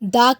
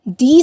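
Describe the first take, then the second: First: The vowel is a short, weak 'uh'. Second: The vowel is a long 'ee'. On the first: The next word starts with a consonant sound. "दा को दा कहकर ही pronounce करते हैं" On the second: The next word starts with a vowel sound. "दा का pronunciation दी से किया"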